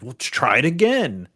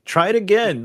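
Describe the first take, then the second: First: Imitating a coach, firm and a bit louder; pushy advice. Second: "try it again" pushed high and loud; urging harder. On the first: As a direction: nudge him to retry. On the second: Retold or imitated. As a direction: pitch jumps way up, louder, mock exasperation. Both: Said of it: "my instincts would be like".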